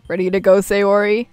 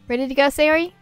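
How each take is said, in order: First: It is said in the narrator's own voice. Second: It is said in another character's voice.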